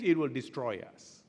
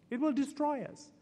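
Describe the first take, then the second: First: Said in the usual way. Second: "It will destroy us" repeated much higher, stress on "will"; emphatic repeat. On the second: Shown as a demonstration. Preacher repeating the warning to the congregation, emphatic. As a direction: drive the warning home on "will".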